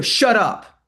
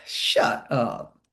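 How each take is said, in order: First: Confrontational shut up. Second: "Shut up." breathed low and whispered; soft playful shut up. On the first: Coach demoing a hostile "Shut up" to the class, loud and sharp. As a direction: SHUT UP barked loud and higher. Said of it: "look at my facial expression. Look at the tone". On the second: Coach showing a soft whispered "Shut up" to trainees. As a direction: whisper "Shut up." gently, no edge. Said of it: "take the same words and I'm like". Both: Shown as a demonstration.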